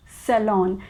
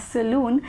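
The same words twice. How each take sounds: First: Salon said as "suh-LON", short o; correct salon. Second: Saloon said as "sa-LOON"; mispronounced salon. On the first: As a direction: end salon in "lon", never "loon". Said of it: "it is pronounced as". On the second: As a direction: stretch saloon with an oo sound. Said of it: "I definitely used to pronounce it as". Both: Shown as a demonstration.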